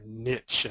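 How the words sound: It is said with an Oklahoma regional pronunciation.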